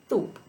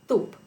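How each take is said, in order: First: The s sound is made between the front teeth. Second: The s sound is made between the front teeth.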